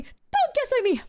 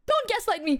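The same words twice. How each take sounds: First: Higher whiny protest. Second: Whiny protest. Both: Real, not acted.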